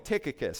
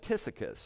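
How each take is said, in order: First: The middle consonant is a hard k sound. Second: The middle consonant is a soft s sound. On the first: The speaker calls it right. "I want to at least keep the consonants the same" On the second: The speaker calls it wrong. "I'm not sure where he got the soft S sound"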